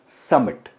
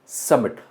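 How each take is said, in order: Both takes have the same delivery.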